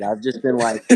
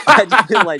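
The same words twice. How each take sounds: First: Said in the usual way. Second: Bursting into laughter, higher and louder; laughing. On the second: Real, not acted. Admitting to drinking at three PM, laughing loudly. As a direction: crack up while repeating it. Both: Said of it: "repeats the phrase, laughing harder".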